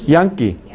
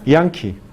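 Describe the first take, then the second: No difference in how they are said.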